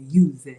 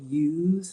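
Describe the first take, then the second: First: The final vowel is pronounced. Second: The final vowel is silent. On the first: Every letter is pronounced, as Italians would. "they would say use" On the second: This is the usual English way. "the English word use"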